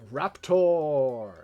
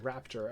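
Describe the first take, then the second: First: It is said in a loud, dramatic announcer voice. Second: It is said in a plain, ordinary voice. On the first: "the way the announcer pronounces it is very Raptor. You know, very Smash Bros" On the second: "I see the ter- the word raptor"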